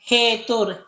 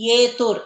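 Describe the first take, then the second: First: The word starts with a clear h sound. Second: The word starts directly with a vowel. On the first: The speaker calls it right. "It is ಹೇತುರ್" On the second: The speaker calls it wrong. "Not it is ಏತುರ್"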